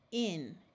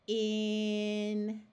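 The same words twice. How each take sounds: First: The word is said quickly, sounds blended together. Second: The word is said slowly, sounds drawn out. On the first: "and then say it fast" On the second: "we will say it slowly"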